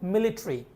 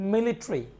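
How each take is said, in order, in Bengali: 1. শেষাংশটি সংক্ষিপ্ত 'ree'-তে নেমে আসে। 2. শেষাংশটি সংক্ষিপ্ত 'ree'-তে নেমে আসে।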